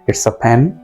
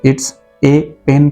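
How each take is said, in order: First: The article is a weak 'uh'. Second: The article is a full 'ay'. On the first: The speaker calls it right. "आप कहेंगे" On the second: The speaker calls it wrong. "कभी नहीं कहेंगे आप"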